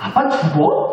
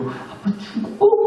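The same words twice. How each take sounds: First: It is said in a bright, excited voice. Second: It is said in a sad, trembling voice.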